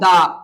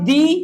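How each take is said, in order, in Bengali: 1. স্বরধ্বনিটি 'uh' এর মতো শোনায়। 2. স্বরধ্বনিটি 'ee' এর মতো শোনায়। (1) "একটা হয় দা" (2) "একটা হয় দি"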